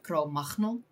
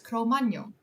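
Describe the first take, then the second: First: It is pronounced with a Dutch sound. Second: It is pronounced with an English sound. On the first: The speaker calls it wrong. "very, very, very Dutch manner of" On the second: The speaker calls it right. "I pronounced it correctly as"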